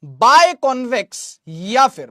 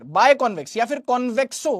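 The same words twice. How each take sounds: First: बायकॉन्वेक्स said slowly and loudly, syllable by syllable; slow emphatic drill. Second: Said in the usual way. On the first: Shown as a demonstration. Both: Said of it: "जहन में रख लो".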